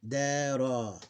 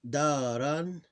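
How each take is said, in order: First: The word ends on a long open vowel. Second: The word ends with a vowel plus n. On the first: "when we have the dot, you keep the vowel" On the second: "we keep the alif"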